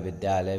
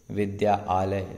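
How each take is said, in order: First: It is said quickly as one word. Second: Two words are said slowly with a break.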